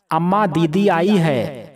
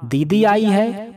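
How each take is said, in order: First: Said in the usual way. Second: Higher, slow, amazed echo; mother echoing the news in surprise; surprised question. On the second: A narrator's reading. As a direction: she can't believe her daughter came. Mother surprised at daughter's arrival.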